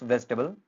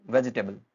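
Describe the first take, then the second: First: वेजिटेबल in three syllables, "vej-tuh-bl"; correct pronunciation. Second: वेजिटेबल in four syllables, "ve-ji-tay-bl"; common mispronunciation. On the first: Teacher introducing the next word, three-syllable वेजिटेबल. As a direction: drop the middle vowel of "वेजिटेबल". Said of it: "यहाँ तीन syllable हैं". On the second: Teacher quoting what many say, four-syllable वेजिटेबल. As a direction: sound every vowel in "वेजिटेबल". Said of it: "इसके चार syllable बना दिए". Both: Shown as a demonstration.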